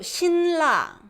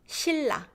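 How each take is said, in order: First: The n sound is kept before the r. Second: The n sound turns into an l sound. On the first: "it's so hard" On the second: "So it becomes"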